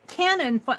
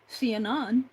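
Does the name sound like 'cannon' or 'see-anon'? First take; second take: cannon; see-anon. First: It sounds like the word for a big gun. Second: It starts with 'see' followed by 'anon'. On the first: The speaker calls it wrong. "Cannon sounds like gunfire" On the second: The speaker calls it right. "a conjunction of an older username of mine that went to C Anon"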